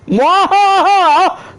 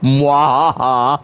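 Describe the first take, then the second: First: It is said loudly, in an outdoor voice. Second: It is said quietly with little energy.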